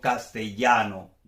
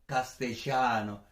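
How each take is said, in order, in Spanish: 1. La doble L se pronuncia como una Y. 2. La doble L se pronuncia al estilo argentino. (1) "soy yeísta, so digo castellano" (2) "si eres de Argentina, pues lo pronunciarías ... sería algo parecido a castellano"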